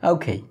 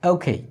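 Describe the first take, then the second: No difference in how they are said.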